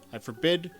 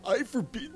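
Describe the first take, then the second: First: It is said in the reader's ordinary voice. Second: It is said in a put-on old man's voice. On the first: The speaker calls it wrong. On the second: The speaker calls it right.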